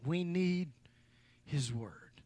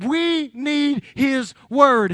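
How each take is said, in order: First: Much softer and lower, almost breathed; hushed intimate. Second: Each word drawn out slow and loud; slow emphatic declaration. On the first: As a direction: bring "We need his word" down to a hush. Same line, dropped to hush. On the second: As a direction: hammer home "We need his word" slowly. Climactic sermon line, drawn out. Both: Real, not acted.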